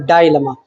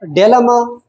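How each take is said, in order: First: "डायलेमा" said as dai-le-ma, with "die" at the start; "डायलेमा" starting like the English word "die"; second pronunciation. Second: "डिलेमा" said as de-le-ma, short e in the first syllable; "डिलेमा" with a short first vowel, like "deh"; first pronunciation. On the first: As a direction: open "डायलेमा" with a long "dai" diphthong. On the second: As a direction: open "डिलेमा" with a short "de" sound. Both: Shown as a demonstration. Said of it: "इसकी pronunciation आप दो किस्म के कर सकते हैं".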